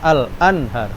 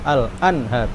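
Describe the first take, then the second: No difference in how they are said.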